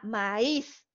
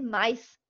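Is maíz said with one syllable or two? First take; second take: two; one. First: The vowels are split into two syllables. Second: The vowels glide together into one syllable. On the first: The speaker calls it right. "obliga a separar el diptongo" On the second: The speaker calls it wrong. "si yo dejo esa palabra como un diptongo, ahí ya no va a decir maíz, va a decir maíz"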